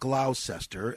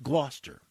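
First: The name is said with three syllables. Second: The name is said with two syllables. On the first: The speaker calls it wrong. "Not Gloucester, as my grade 12 English teacher was insisted on saying" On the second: The speaker calls it right. "It's pronounced Gloucester"

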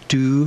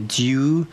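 First: No y sound comes before the vowel. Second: A y sound comes before the vowel. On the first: "or you can pronounce it without the yod" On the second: "you can pronounce this with a year"

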